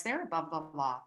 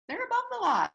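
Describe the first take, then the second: First: Low, soft, confiding statement; low aside. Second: Pitched way up, pointed repeat; high-pitched emphasis. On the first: Telling the guys about young souls, low confidential aside. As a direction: drop it low and quiet. First, low take of repeated line. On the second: In case you didn't know it, high emphatic repeat. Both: Shown as a demonstration.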